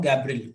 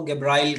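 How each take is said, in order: First: गैब्रिल with a short i in the last syllable; teacher's own pronunciation. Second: गैब्राइल with a long "eye" vowel; alternative pronunciation. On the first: Teacher giving students his version, गैब्रिल said with short "-bril". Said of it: "मैं इसको बोल रहा हूँ". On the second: Teacher showing how others say it, गैब्राइल with "-brile". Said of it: "कई लोग इसको गैब्राइल कह देते हैं". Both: Shown as a demonstration.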